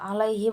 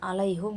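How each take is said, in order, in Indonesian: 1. Vokal setelah h adalah bunyi i. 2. Vokal setelah h adalah bunyi u.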